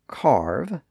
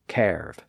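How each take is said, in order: First: The vowel is the modern 'ar' sound. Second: The vowel is an older 'er'-like sound. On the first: This is the present-day pronunciation. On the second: This is the pronunciation from centuries ago.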